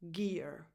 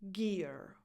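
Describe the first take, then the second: First: The word begins with a hard g sound. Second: The same.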